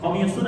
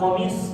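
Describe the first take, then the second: First: It ends with a full final un ending. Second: It ends abruptly on the s consonant.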